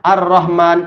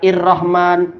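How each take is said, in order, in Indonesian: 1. Kata ini diawali dengan vokal 'a'. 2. Kata ini diawali dengan vokal 'i'. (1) "Depannya adalah fathah" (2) "tidak bilang"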